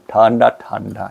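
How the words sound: It is said with an English-style pronunciation. "걔들 발음은"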